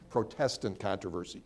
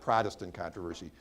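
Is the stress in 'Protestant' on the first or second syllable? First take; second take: second; first. First: The stress is on the second syllable. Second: The stress is on the first syllable. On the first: The name comes from people protesting. The speaker calls it right. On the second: It names the Protestant church. The speaker calls it wrong.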